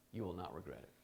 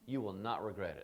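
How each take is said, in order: First: Quieter, low and earnest; soft, sincere restatement; softer repeat. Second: Said in the usual way. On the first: Shown as a demonstration. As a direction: say it again gently, letting it sink in.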